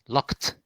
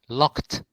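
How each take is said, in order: Both takes have the same delivery.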